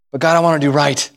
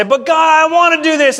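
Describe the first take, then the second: First: Low, humble appeal to God; contrite plea. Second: High, whiny complaint to God; hardened protest. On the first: Believer choosing to confess to God, contrite plea. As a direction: submit sincerely, no argument left. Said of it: "Or will I say". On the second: Believer resisting God's correction, hardened whining protest. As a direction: argue back like a thwarted child. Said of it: "we get hard and say". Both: Acted.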